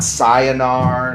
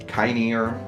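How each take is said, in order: First: The word begins with an s sound. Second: The word begins with a k sound. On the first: "not cyanar" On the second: "not kynear"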